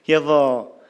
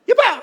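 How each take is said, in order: First: It is said at a normal pitch. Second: It is said in a very high, sharp pitch.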